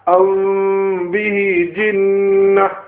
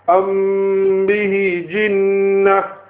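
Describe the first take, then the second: First: The m is lightly touched and hidden. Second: The m is fully pressed and merged. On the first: The speaker calls it right. "Now read it correctly" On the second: The speaker calls it wrong. "Now I'm going to read the Ikhfa one incorrectly"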